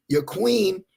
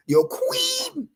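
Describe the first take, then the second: First: Said in the usual way. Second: A sudden high, mocking squeak on queen; mocking squeal. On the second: Preacher mocking the followers' queen, high squeak. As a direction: sneer it up high like a joke.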